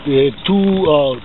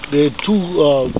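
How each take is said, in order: Both takes have the same delivery.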